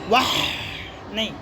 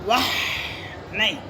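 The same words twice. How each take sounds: Both takes have the same delivery.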